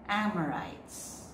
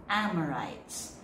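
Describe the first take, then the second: Both takes have the same delivery.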